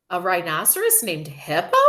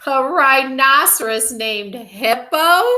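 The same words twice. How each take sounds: First: Questioning, at an ordinary volume; mild disbelief. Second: High, loud, drawn-out hilarious disbelief; crying out. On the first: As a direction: ask it with restrained, puzzled surprise. Fluffy repeats the name in disbelief. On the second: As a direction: howl it slowly as an incredulous question. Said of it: "Fluffy cried". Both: A narrator's reading.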